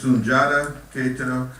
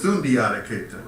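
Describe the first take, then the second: First: The middle is said with a single 'j' sound. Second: The middle is said with a separate 'dee-ah' sound. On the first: This is the name's correct form. The speaker calls it right. "the correct pronunciation is" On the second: This is how many people commonly said the name. The speaker calls it wrong. "many people, you know, when I was coming up, when we talked about him, uh, referred to him as"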